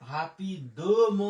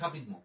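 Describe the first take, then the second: First: The word is said slowly, in separate parts. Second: The word is said quickly, run together. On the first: "হাপিদ ম বলতে পারেন" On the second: "ফরাসি একসাথে তাড়াতাড়ি উচ্চারণ করে"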